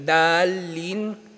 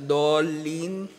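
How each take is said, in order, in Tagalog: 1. Payak na d ang unang katinig. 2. Madiin na d ang unang katinig. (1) "Kapag binasa mo yung dod bilang dal" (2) "sa halip na dolin"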